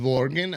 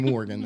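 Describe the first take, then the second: First: The name begins with a V sound. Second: The name begins with a W sound. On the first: The speaker calls it wrong. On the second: The speaker calls it right.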